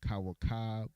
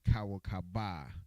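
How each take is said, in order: First: The last letters are joined, ending in a consonant. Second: The last letters are said apart, ending in a vowel. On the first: The final letters are joined. "the last two are connected, so they're pronounced it together" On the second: The final letters are not joined. "if it wasn't connected"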